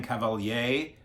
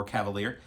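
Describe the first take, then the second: First: "Cavalier" as French ka-val-YAY; French pronunciation. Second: "Cavalier" as English cav-uh-LEER; English pronunciation. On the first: Vlogger naming the director, French pronunciation of "Cavalier". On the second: Vlogger offering the other reading of the name, English pronunciation of "Cavalier". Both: Shown as a demonstration. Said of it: "or Cavalier".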